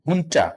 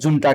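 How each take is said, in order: First: The word begins with an h sound. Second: The word begins with a j sound. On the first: The speaker calls it right. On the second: The speaker calls it wrong.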